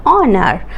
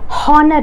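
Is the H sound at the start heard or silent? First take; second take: silent; heard. First: The word begins without any H sound. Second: The word begins with an audible H sound. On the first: The speaker calls it right. "H remains silent" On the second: The speaker calls it wrong. "honor nahi"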